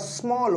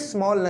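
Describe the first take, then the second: First: The word starts directly with the s sound. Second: An extra vowel is added before the s. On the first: The speaker calls it right. "स्मॉल होता है। इसका sound जो है वो एस से start होगा।" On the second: The speaker calls it wrong. "इस स्मॉल नहीं होता"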